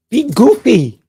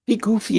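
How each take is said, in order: First: High, loud playful shout; goofy cheer. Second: Said in the usual way. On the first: Acted. Host urging viewers to loosen up, loud and high. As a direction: burst out with it like a big kid.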